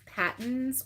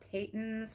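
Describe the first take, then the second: First: The first vowel is short, as in 'pat'. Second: The first vowel is long, as in 'pay'. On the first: "I wasn't sure if it was Patton's or Peyton's" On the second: "he confirmed that it was Peyton's"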